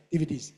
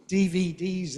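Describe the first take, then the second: First: "D V Ds" squashed, quick, short vowels; underpronounced letters. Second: "D V Ds" loud, every letter long and stressed; full letter names. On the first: Retold or imitated. Teacher imitating learners, underpronounced letter names. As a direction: hurry through "D V Ds" as one word. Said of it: "so often are underpronounced". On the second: Shown as a demonstration. Teacher showing English speakers' way, big stressed letters. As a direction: give each letter of "D V Ds" full weight. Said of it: "as English speakers say".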